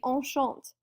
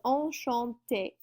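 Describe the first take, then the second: First: The word ends without a final vowel sound. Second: The word ends with an 'ay' vowel sound. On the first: "if the accent was not there, the word would just be enchant" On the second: "we're going to make that E sound like A"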